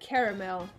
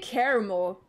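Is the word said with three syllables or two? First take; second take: three; two. First: All three syllables are pronounced. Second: The middle syllable is dropped, leaving two syllables.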